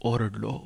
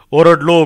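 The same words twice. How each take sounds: First: Low, soft and weary; quiet, spent admission; subdued recollection. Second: Loud, anguished outburst; forceful raised voice; throat-splitting shout. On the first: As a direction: say it under the breath. Spent aside before the louder repeat. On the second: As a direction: belt it out in desperation. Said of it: "घसा फोडून ओरडलो". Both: Acted.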